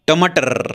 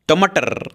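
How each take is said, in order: The two takes are said the same way.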